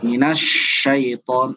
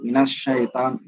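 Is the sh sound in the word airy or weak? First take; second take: airy; weak. First: The sh sound has a long, spreading hiss. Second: The sh sound is short with little air. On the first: The speaker calls it right. "Minasy ya, seperti ini" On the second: The speaker calls it wrong. "Bukan sekedar minasyaiton"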